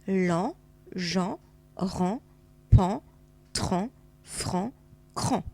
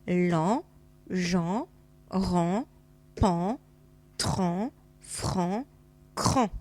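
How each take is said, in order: First: The syllables are read at a faster pace. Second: The syllables are read at a slower pace.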